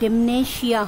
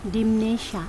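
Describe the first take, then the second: First: The first syllable is said with an 'eh' vowel. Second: The first syllable is said with an 'ee' vowel. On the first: The speaker calls it wrong. "ডেমনেশিয়া হবে না" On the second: The speaker calls it right. "Proper উচ্চারণ হলো ডিমনেশিয়া"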